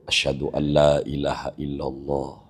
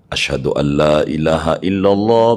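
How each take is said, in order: First: It is said quietly. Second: It is said loudly.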